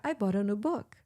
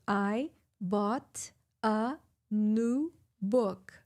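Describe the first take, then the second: First: "I bought a new book." run together, bought as bɔɾ; connected speech. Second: Very slow, every word separated; slow, word by word as written. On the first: Teacher showing how natives say it, all linked. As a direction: link "I bought a new book." into one flowing chunk. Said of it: "Eles vão falar". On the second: Teacher showing written English, slow and separated. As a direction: read each word apart like the textbook. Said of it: "se você vê escrito, tá escrito". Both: Shown as a demonstration.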